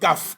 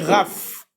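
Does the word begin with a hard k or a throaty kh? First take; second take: hard k; throaty kh. First: It begins with a hard k sound. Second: It begins with a throaty kh sound. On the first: The letter is written with a dot. "Le son c'est K" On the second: The letter is written without a dot. "s'il n'y a pas le point, c'est Raf"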